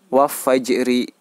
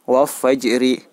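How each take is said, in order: The two takes are said the same way.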